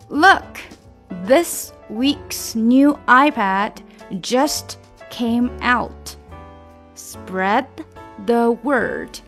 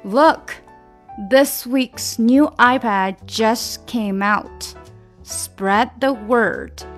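First: The sentence is spoken at a normal pace. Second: The sentence is spoken at a faster pace. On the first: "重新来吧" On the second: "加快"

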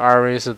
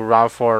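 First: It is read letter by letter in Chinese. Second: It is read as an English word.

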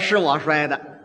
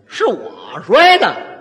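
First: It is said as a plain, flat statement. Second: It is said as an indignant rhetorical question. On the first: The child admits he broke it. "这茶碗呢就是他摔的" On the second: The child denies he broke it. "语气不对，这意思就变了"

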